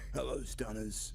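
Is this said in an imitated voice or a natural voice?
imitated. It is said in an imitated, put-on voice.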